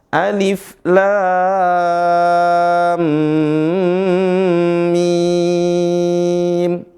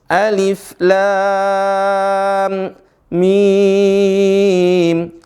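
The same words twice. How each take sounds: First: Lam and mim run together without a break. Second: There is a break between lam and mim. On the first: The speaker calls it right. "tidak diputus lam mim, tapi disambung" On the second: The speaker calls it wrong. "sebagian teman-teman kita membacanya"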